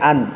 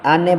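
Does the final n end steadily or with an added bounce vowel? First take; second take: steady; bounce vowel. First: The final n is held steady without a vowel. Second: The final n is released with an added vowel. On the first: The speaker calls it right. "স্টেটলি ধরতে হবে" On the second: The speaker calls it wrong. "আনে বললেই ওই জায়গায় উচ্চারণ ভুল হবে"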